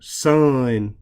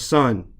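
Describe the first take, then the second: First: The word is drawn out long. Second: The word is said short and plain. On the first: "be a little country and say" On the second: "instead of son"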